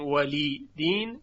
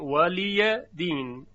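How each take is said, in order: First: The ya is silent, ending in a long i. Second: The ya carries an a vowel: liya. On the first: "به جای اینکه بگویم ولی دین" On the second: "میگویم ولی دین"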